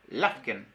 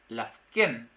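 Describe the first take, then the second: First: The stress is on the first syllable. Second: The stress is on the last syllable. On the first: This is how another territory's speakers say it. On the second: This is how one territory's speakers say it.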